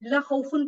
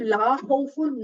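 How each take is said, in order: First: The vowel of 'la' is short. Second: The vowel of 'la' is long. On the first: There is certainly fear. The speaker calls it wrong. "इसकी ला को अगर हम लंबा नहीं करते" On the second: There is no fear. The speaker calls it right. "नहीं कोई खौफ"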